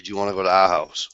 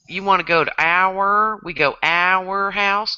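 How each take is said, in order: First: "our" as one open syllable, ah; R dropped. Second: "our" drawn out as ow-er; two-syllable our. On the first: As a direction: say "our" as a short ah without the R. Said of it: "I'll say". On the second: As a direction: drag "our" out into ow-er. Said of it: "two syllables, man". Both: Shown as a demonstration.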